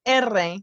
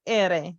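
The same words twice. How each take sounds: First: "R" named as "erre" with a trill; rolled erre. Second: "R" named as "ere" with one tap; tapped ere. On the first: Teacher contrasting word-initial R sound, trilled erre. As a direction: roll the tongue in saying "R" as "erre". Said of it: "pronounced more like the". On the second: Teacher contrasting R inside a word, single-tap ere. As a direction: flick the tongue once for "R" as "ere". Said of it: "instead of the R". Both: Shown as a demonstration.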